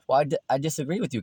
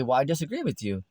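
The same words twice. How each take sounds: First: Fast, tripping disagreement, stumbling on "di-"; hurried objection. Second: Said in the usual way. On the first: Acted. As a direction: rush it out, tripping over "disagree". Neighbors quarrelling in sketch.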